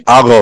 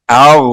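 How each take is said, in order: First: اغ with a hard bounce at the end of the gh; harsh qalqala. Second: اغ with a gently held gh and no bounce; soft sukoon. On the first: Teacher showing the mistake to avoid, harsh bounced gh. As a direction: snap the gh in اغ so it echoes. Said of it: "یہ نہیں کریں گے، یہ قلقلہ آ جائے گا". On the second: Teacher showing the right way to read, soft gh. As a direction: let the gh in اغ fade out softly. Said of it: "نرمی سے پڑھیں گے". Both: Shown as a demonstration.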